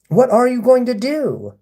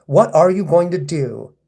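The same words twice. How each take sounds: First: Pitched way up, goading; high baiting taunt. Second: Baiting taunt. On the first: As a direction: push it higher to provoke. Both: Real, not acted. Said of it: "I'm baiting you right now".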